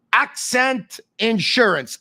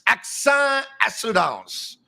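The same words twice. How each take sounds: First: "Accent Insurance" said slowly with English sounds, as the English brand name. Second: "Accent Assurance" said slowly with French sounds, as the French brand name. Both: Shown as a demonstration.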